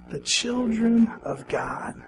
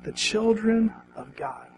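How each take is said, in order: First: Slow, hushed whisper of the phrase; whispered echo. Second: Said in the usual way. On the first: Shown as a demonstration. Preacher whispers the line with the congregation. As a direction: breathe it back to them softly. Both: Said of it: "Say it with me".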